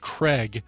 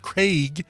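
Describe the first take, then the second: First: The vowel sounds like the e in 'leg'. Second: The vowel sounds like the ai in 'rain'. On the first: "prefer the pronunciation Craig spelled it K R E G" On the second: "pronounce it Craig, C R I A I G"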